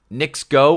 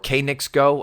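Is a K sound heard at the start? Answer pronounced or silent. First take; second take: silent; pronounced. First: The name begins with an N sound, no K. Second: The name begins with a pronounced K sound. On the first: "I'm going to just go with Knicks Go for now" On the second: "Randy Moss had said K Knicks Go because that is what uh, basically how the entirety of all of the horses that that group owns. It starts with a K"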